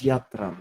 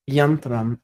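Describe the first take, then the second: First: "Yatram" with no n before the t; Yatram without N. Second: "Yantram" with an n before the t. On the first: Editor comparing two readings of the verse, "Yatram" without n. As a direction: say "Yatram" as YAH-tram, no n. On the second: Editor comparing two readings of the verse, "Yantram" with n. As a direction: say "Yantram", sounding the n: YAN-tram. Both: Shown as a demonstration. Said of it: "Yantram versus Yatram".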